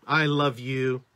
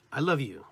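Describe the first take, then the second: First: Loud, level, weighty I love you; emphatic energy. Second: Said in the usual way. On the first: Shown as a demonstration. Speaker shows the word's energy, loud and emphatic. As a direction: give every word full force, held steady. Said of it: "you can almost tell what I'm saying". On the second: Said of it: "The word love in itself sends energy".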